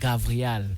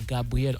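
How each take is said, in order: First: The name is said with a v sound. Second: The name is said with a b sound. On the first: The speaker calls it right. "on dit alors Gavrial" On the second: The speaker calls it wrong. "on ne dit pas Gabriel"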